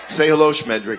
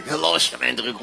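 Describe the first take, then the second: First: Said in the usual way. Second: Lightly voiced puppet; a hint of a cheeky puppet. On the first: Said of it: "Everybody say hello to Schmendrick".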